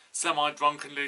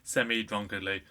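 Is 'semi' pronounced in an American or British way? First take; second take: American; British. First: Semi is said with an American pronunciation. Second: Semi is said with a British pronunciation. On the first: "Why did I say the American pronunciation?" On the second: "Over here we say it semi"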